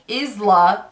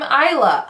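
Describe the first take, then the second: First: The name does not sound like island. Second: The name sounds like island without d. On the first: The speaker calls it wrong. "most people call me" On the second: The speaker calls it right. "island without the and"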